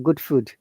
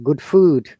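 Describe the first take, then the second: First: Scottish accent, with food's vowel like good's. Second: Standard English accent, with a long vowel in food. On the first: "Scottish people say the similar way" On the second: "In food, the sound is a bit longer"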